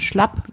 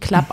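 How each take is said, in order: First: The word begins with an sh sound. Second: The word begins with a k sound. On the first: "sondern Schlapp" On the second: "Vielleicht wird das ja auch nicht Klapp ausgesprochen"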